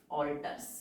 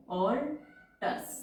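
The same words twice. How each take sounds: First: Said in the usual way. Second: Very slow rising alters, each sound stretched; drawn-out word. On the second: Shown as a demonstration. Teacher drawing out the word. (Alters को धीरे-धीरे खींचकर)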